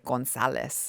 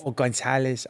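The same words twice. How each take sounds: First: Mock Spanish pronunciation of Gonzalez; lightly Spanish Gonzalez. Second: Gonzalez with a lisped z, "Gonthaleth"; Spanish lisp on Gonzalez; Castilian lisp. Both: Shown as a demonstration.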